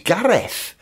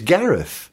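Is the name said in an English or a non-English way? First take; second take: non-English; English. First: The name is said in a non-English way. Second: The name is said in an English way. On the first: This is how the name is said at home. "My name's Gareth" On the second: This is how the name is said to English people. "when I'm talking to English people, it's Gareth"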